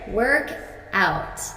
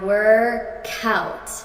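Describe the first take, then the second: First: The two words are said separately. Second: The k sound links onto the next vowel.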